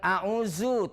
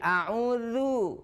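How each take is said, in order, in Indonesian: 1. Konsonan di tengah itu z biasa yang bergetar. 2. Konsonan di tengah itu th bersuara yang lembut.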